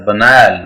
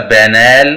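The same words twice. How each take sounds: First: "banal" as buh-NAL, pitch lower; stress on N. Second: "banal" as BAN-al with a full first A; wrong pronunciation. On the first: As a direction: schwa first in "banal", weight on the n. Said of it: "N पे stress है". ("banal" में N पर ज़ोर) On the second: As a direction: open "banal" on a strong BAN. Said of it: "it's not a". ("banal" का गलत उच्चारण, शुरू में पूरा बै) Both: Shown as a demonstration.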